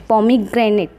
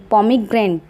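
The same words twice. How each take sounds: The two takes are said the same way.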